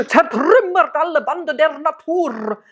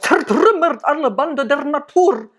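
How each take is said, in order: First: "Zertrümmert alle Bande der Natur" with every R rolled; harsh rolled R's all through; overdone rolled R demo; too much R rolling. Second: "Zertrümmert alle Bande der Natur" with every R rolled hard; mock harsh oratory with all R's rolled; over-rolled R's. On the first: Shown as a demonstration. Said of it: "it's too much R rolling". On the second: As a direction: roll every R in "Zertrümmert" harshly, speech style. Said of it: "That's kinda how he spoke".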